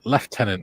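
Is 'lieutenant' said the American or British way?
British. The first syllable sounds like 'left'. The speaker calls it right. "it's lieutenant"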